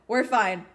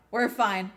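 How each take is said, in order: Both takes have the same delivery.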